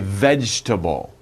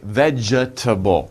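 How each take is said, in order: First: The E after the G is dropped. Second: The E after the G is sounded. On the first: The speaker calls it right. "we say vegetable. So it sounds like you don't say E" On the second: The speaker calls it wrong. "it looks like vegetable, but no"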